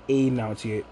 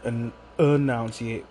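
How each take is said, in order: First: The word is pronounced loosely and casually. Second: The word is pronounced crisply and carefully. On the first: The speaker calls it wrong. "not enunciate" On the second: The speaker calls it right. "I learned the word enunciate"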